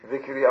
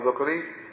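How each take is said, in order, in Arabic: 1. الصوت الأول هو 'i'. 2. الصوت الأول هو 'u'. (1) "بكسر الدال" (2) "ضم الدال"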